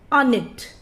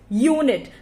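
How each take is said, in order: First: The first vowel is short, as in up. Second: The first vowel is long, as in you. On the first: The speaker calls it wrong. "Is it sounding correct for you? No, it's not" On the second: The speaker calls it right. "It is making a long vowel sound"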